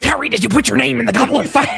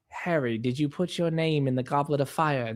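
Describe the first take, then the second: First: It is asked in an agitated voice. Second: It is asked in a calm voice.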